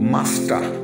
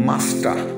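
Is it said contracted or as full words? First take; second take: contracted; contracted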